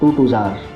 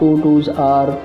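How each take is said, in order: First: It is said quickly with the words run together. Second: It is said slowly with each word separate. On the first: "अगर इसको अगर हम जल्दी जल्दी बोलें" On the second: "बच्चा कुछ दिन जैसे इस तरह बोलेगा"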